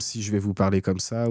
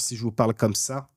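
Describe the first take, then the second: First: The consonants are soft and loosely articulated. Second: The consonants are struck crisply and clearly. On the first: The speaker calls it wrong. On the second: The speaker calls it right. "et que je tape les consonnes"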